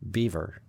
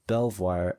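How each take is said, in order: First: It sounds like the English word 'beaver'. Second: It sounds like French 'bel-vwar', keeping all letters. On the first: This is the English castle's traditional name. "my search said it was pronounced Beaver" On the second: This is the original French name of the winery. "it is actually pronounced Belvoir, as it should be"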